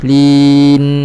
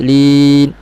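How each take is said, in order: First: The word has an overly long nasal hum. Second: The word has no nasal hum at all. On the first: "jangan lebih lin, jangan layan ataupun terlebih" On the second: "jangan hilangkan terus lin, hilang"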